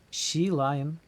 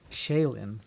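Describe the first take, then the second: First: The name sounds like 'she lion'. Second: The name sounds like 'shay-lin'. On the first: The speaker calls it wrong. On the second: The speaker calls it right.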